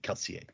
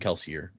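First: The name is said with a French-style pronunciation. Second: The name is said with a plain English pronunciation. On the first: This is the technically correct pronunciation. "technically the pronunciation would be Kelsier" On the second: This is the way everyone usually says it. "Even Brandon in interviews and stuff calls him Kelsier"

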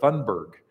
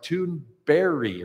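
First: The name ends with a hard g sound. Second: The name ends with a soft y-like sound. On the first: The speaker calls it wrong. "I've been mispronouncing her name" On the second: The speaker calls it right. "It's more like a soft J at the end that's more of an I"

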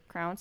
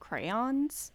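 First: The word is said as one syllable, like crowns. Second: The word is said as two syllables, cray-ons. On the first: The speaker calls it wrong. "you were saying it wrong" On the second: The speaker calls it right. "you mean crayons?"

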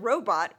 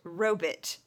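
First: The second syllable has a full 'bot' vowel. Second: The second syllable is reduced to 'bit'. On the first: "all of the actors who use the word robot" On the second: "pronounce it robit"

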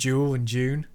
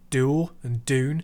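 First: The words are said with a British pronunciation. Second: The words are said with an American pronunciation. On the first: The speaker calls it wrong. "rather than" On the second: The speaker calls it right. "I really prefer the American way of saying D"

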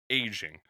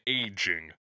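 First: The word is said casually, without careful articulation. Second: The word is said with careful, clear articulation. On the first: The speaker calls it wrong. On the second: The speaker calls it right.

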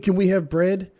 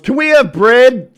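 First: It is asked in a friendly, pleasant tone. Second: It is asked in an angry, yelling tone. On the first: This is a polite request. The speaker calls it right. "I want to say" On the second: This comes across as a hostile demand. The speaker calls it wrong. "But it's always"

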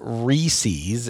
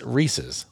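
First: The word's ending rhymes with feces. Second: The word's ending does not rhyme with feces. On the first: The speaker calls it wrong. "it's not Reese's ... Reese's sounds too much like feces to me" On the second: The speaker calls it right. "it's Reese's"

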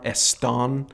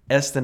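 First: The name is said with a Spanish pronunciation. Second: The name is said with an English pronunciation. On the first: This is how others guess the name. The speaker calls it wrong. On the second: This is how the family says the name. The speaker calls it right.

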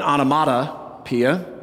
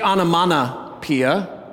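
First: A clear T sound is pronounced. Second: An N sound replaces the T sound. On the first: The speaker calls it right. "rather than" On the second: The speaker calls it wrong. "lots of us insert an N where the T is. We say"

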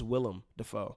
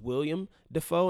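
First: The first name is said like Willem. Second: The first name is said like William. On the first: The speaker calls it right. "but it is Willem Dafoe" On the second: The speaker calls it wrong. "I thought it was William Dafoe"

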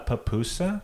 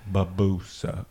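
First: The first P is released with a strong pop. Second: The first P is soft, almost like a B. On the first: The speaker calls it wrong. "We have enough pops" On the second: The speaker calls it right. "I'm going to do a soft P"

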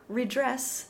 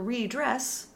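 First: The first vowel is a short, open i. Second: The first vowel is a long, stressed ee. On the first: To make amends for something. "Redress means to make amends for" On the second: To dress again. "to redress means to dress again"

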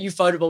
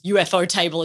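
First: The name is blended together as one word. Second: The first part sounds like the acronym UFO. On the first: The speaker calls it wrong. "I was pronouncing it Ufotable" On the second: The speaker calls it right. "it was UFO Table as in like, you know, unidentified flying object"

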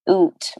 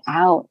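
First: It is said with a stereotyped Canadian accent. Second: It is said with an American accent.

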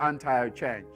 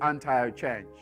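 First: The word is said with an American pronunciation. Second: The same.

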